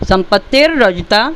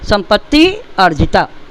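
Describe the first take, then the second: First: The two words are joined into one. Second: The two words are said apart.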